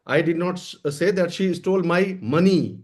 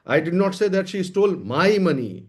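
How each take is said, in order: First: The stress falls on the word money. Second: The stress falls on the word my. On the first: She stole something other than money. "कोई और चीज चुराई है।" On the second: She stole money, but not the speaker's money. "लेकिन मेरा पैसा नहीं चुराया है।"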